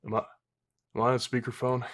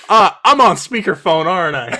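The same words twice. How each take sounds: First: Halting, softer suspicious query; hesitant mock question. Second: Louder, higher indignant outburst; loud mock realisation. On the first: Imitating Mordecai interrupting his rant, hesitant question. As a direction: imitate someone tentatively checking, softly. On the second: Imitating Mordecai catching them laughing, loud indignant realisation. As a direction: blurt out the accusation, hammed-up.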